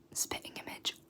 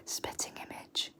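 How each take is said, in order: Both takes have the same delivery.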